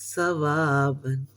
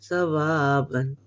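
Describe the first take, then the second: Both takes have the same delivery.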